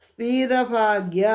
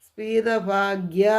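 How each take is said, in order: Both takes have the same delivery.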